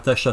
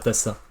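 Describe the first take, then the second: First: The middle consonant is an 'sh' sound. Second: The middle consonant is a plain 's' sound. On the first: The speaker calls it right. "Tasha, c'est pas Tassa" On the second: The speaker calls it wrong. "c'est pas Tassa"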